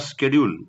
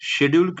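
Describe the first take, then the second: First: The word begins with an 'sk' sound. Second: The word begins with an 'sh' sound. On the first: "दोन्ही उच्चार बरोबर आहेत" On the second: "दोन्ही उच्चार बरोबर आहेत"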